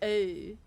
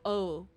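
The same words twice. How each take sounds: First: The vowel in oh sounds British. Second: The vowel in oh sounds non-British. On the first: "her British accent would come out um during the O's" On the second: "instead of oh"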